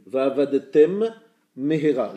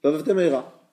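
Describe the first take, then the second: First: "Va'avadetem", a short break, then "mehera", slow and loud; both mems distinct. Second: "Va'avadetem mehera" as one quick word, one M dropped; read fast, slurred. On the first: Teacher reading the example correctly, slow and distinct. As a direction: separate the two M sounds deliberately. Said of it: "Il y a deux mèmes qui se suivent". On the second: Teacher showing a mem swallowed in fast reading, run together. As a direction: rush "Va'avadetem mehera" with a single shared M. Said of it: "Je lis vite". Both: Shown as a demonstration.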